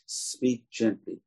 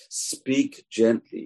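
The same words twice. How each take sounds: First: Soft and slow speak gently; gentle. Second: Slow, with gently stretched and raised; stress on gently. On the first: Preacher modelling the advice, soft and slow. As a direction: say gently softly, as if soothing. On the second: Preacher urging the congregation, gently stressed slowly. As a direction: lean on gently, higher and slow. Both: Shown as a demonstration.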